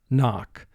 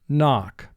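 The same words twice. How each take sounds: The two takes are said the same way.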